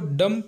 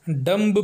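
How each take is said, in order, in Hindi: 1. अंतिम b मौन रहता है। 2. अंतिम b बोला जाता है। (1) "इसको डम पढ़ा जाना चाहिए" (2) "कई लोग इसे डम्ब पढ़ते हैं जो कि गलत है"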